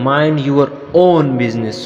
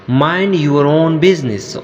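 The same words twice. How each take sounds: First: "own" stands out as the strongest word; stress on OWN. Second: Said in the usual way. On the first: Shown as a demonstration. Teacher showing how "own" emphasizes the phrase, stress on "own". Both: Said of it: "We, we emphasize the word".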